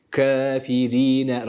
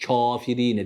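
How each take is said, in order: First: Kafirine very slow, kef toward e; slow Kafirine, fine ke sound; thin kef. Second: Kafirine with an open a on the kef; broad Kafirine; wrong kef. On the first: Tutor models the correct thin kef. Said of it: "Kef ince bir harftir". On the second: Tutor shows the mistaken open a. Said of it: "Kafirine değil". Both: Shown as a demonstration.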